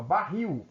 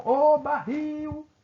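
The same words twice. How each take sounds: First: Said in the usual way. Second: Sustained high, louder hail, stretching the end of "barril"; calling out. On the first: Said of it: "É só eu chamar a palavra". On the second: Shown as a demonstration. Teacher calls the word like a person's name to find the stressed syllable, calling out "barril". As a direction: call out "barril" with the last syllable high and drawn out. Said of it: "você tivesse de chamá-la".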